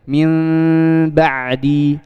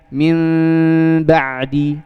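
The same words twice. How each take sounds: First: The lips part slightly on the nasal sound. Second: The lips part slightly on the nasal sound.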